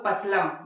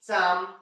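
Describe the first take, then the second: First: It begins with a P sound. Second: It begins with an S sound. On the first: The speaker calls it wrong. "वो पसलम था क्या? नहीं" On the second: The speaker calls it right. "जैसे साम"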